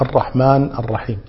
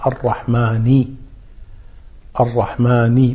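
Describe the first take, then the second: First: الرحمن stopped on a bare n; vowelless nun. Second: الرحماني ending in a clear "-ni"; kasra on nun. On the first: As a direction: show الرحمن with no final i. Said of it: "ما يصلح". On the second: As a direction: hold the final i of الرحماني. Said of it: "بكسر النون". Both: Shown as a demonstration.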